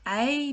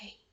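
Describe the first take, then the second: First: It is spoken in a normal voice. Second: It is whispered without voice. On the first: "recite in a talking voice the alphabet" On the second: "Let's whisper it"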